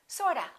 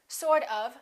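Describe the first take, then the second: First: The word 'of' is reduced to 'a'. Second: The word 'of' is pronounced in full.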